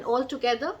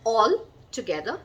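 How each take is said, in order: First: "all together" run together as a single word, no pause; one joined word. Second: "all together" split by a clear pause after "all"; two separate words. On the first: Teacher contrasting spellings for learners, "all together" joined as one word. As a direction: join "all" straight onto "together". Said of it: "there are no two L's in all". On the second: Teacher contrasting spellings for learners, "all together" as two separate words. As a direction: say "all", stop, then "together". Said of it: "two separate words". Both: Shown as a demonstration.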